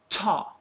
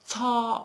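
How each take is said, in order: First: The t sound at the start is strong. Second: The t sound at the start is weak. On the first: The speaker calls it right. "a very strong start" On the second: The speaker calls it wrong. "Don't say like cha or ta or ka"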